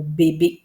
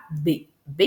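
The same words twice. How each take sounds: First: Said in the usual way. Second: "B, B" as bé, bé with a gap between; two separate beats on "B, B", each bé; split into syllables. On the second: Shown as a demonstration. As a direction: break the word into "B, B", syllable by syllable. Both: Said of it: "j'ai deux syllabes".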